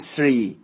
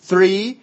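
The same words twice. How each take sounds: First: The first sound is an s. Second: The first sound is a soft th. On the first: The speaker calls it wrong. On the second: The speaker calls it right.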